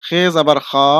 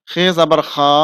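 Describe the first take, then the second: No difference in how they are said.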